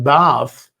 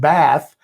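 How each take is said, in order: First: The word is said with a British accent. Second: The word is said with an American accent.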